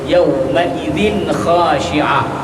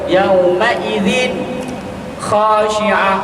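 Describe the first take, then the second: First: The phrase is said connected without stopping. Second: The phrase has a brief stop inside it. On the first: The speaker calls it right. "dia kena baca sambung" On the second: The speaker calls it wrong. "Itu hukum sakta"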